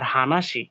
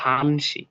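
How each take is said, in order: First: The word has three syllables, with hana in full. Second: The word has two syllables, with shortened han. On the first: The speaker calls it wrong. "এভাবে বলে না তারা" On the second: The speaker calls it right. "তারা বলে হচ্ছে হানসি"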